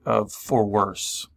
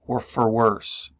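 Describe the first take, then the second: First: "for worse" drawn out slowly, each word weighted; "for worse" said slow and solemn, like a vow; slow stress on for worse. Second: "or for worse" drawn out slowly, each word weighted; "for worse" said slow and solemn, like a vow; slow stress on for worse. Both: Shown as a demonstration. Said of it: "we say for better or for worse".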